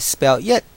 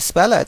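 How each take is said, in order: First: The two words are said separately, not linked. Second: The two words are linked into one unit. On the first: The speaker calls it wrong. "I say spell it" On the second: The speaker calls it right. "instead of say spell it"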